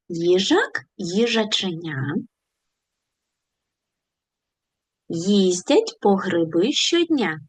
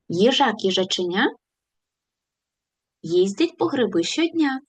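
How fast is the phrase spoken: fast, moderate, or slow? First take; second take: slow; moderate. First: The phrase is spoken slowly. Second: The phrase is spoken at a moderate speed. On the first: "Давайте повільно повторимо цю скоромовку" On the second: "Пришвидшимося"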